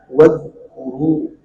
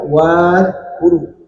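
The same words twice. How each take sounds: First: The first vowel is short. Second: The first vowel is drawn out long. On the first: The speaker calls it right. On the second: The speaker calls it wrong.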